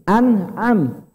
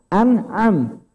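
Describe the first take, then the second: No difference in how they are said.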